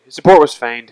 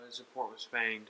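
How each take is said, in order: First: Loud, clear announcement; louder declaration. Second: Muttered under breath; quiet aside. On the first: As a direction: proclaim it to the room. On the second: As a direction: say it softly to yourself. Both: Shown as a demonstration.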